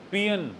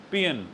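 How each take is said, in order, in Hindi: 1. यह शब्द 'pee-un' जैसा सुनाई देता है। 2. यह शब्द 'pee-un' जैसा सुनाई देता है।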